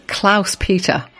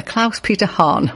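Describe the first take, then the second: First: Said in the usual way. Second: Klaus Peter Hahn said slowly, relishing it; slow savouring. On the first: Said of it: "Two names together". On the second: Shown as a demonstration. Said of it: "What a lovely name".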